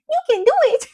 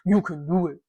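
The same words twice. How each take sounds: First: It is said softly, without any threat. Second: It is said harshly, in a threatening way. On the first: "Somehow he doesn't sound that threatening when he says" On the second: "Instead of"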